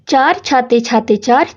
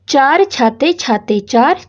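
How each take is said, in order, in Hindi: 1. वाक्यांश थोड़ी तेज़ गति से बोला गया है। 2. वाक्यांश धीमी, आराम वाली गति से बोला गया है। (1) "थोड़ा और तेज बोलने की कोशिश करें।" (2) "पहले आप इसको आराम से पढ़ोगे"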